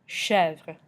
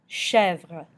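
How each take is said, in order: Both takes have the same delivery.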